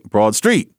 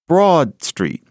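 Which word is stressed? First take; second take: Street; Broad. First: The stress is on the second word. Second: The stress is on the first word. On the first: It describes a street that is broad. The speaker calls it wrong. "you don't say Broad Street" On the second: It is the fixed name of the street. The speaker calls it right. "today you say Broad Street"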